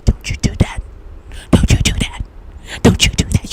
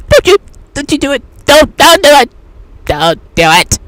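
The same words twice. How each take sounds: First: Warning whisper. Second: Loud, fast, high don't do it; urgent warning. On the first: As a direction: hiss the warning like your gut talking. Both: Retold or imitated. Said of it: "the tingling sensation telling you".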